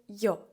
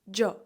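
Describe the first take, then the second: First: The word begins with a 'y' sound. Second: The word begins with a 'j' sound. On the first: "Я іспанською буде йо" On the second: "Також ви можете почути таку вимову, як джо"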